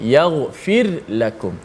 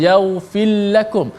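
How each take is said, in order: First: The r is pronounced clearly before the l. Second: The r merges into the following l. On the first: The speaker calls it right. "Dijelaskan ra tu mati" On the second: The speaker calls it wrong. "Jangan baca"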